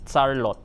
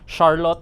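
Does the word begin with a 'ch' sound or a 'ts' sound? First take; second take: ts; ch. First: The word begins with a 'ts' sound. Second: The word begins with a 'ch' sound. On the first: The Filipino-adapted pronunciation. "becomes T S" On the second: The original English pronunciation. "C H"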